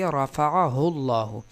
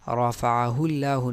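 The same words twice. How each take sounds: First: The L in Allah is heavy and full. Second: The L in Allah is thin and light. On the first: The speaker calls it right. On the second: The speaker calls it wrong.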